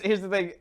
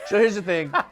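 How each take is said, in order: First: It is said in his normal voice. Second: It is said in a put-on comic voice.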